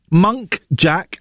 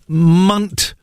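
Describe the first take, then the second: First: The first syllable sounds like 'monk'. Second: The first syllable sounds like 'munt'. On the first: The speaker calls it wrong. "I recently found out that monk jack deer are actually muntjac" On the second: The speaker calls it right. "actually muntjac"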